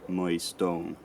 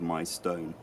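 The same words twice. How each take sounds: First: The vowels sound older and not fully shifted. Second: The vowels sound like modern English pronunciation. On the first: This is how it was said around 1700. "by seventeen hundred, um, it had gone a bit further, and also the vowel in stone had started to uh, break as well" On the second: This is how it is said today. "And then today, obviously, we have my stone"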